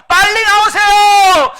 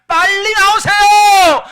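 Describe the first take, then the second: The two takes are said the same way.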